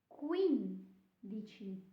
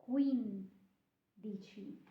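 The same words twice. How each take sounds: Both takes have the same delivery.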